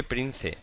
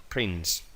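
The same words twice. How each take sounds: First: "prince" read as Spanish "prin-ce", final e sounded; spell-read "prince" with a th for the C; como se escribe. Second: "prince" as English "prins", one syllable; C como S. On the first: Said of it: "Se escribe prince". ("prince" leído a la española, como se escribe) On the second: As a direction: model "prince" ending in an S. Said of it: "esa C que se pronuncia como una S". ("prince" en inglés, con la C como ese) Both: Shown as a demonstration.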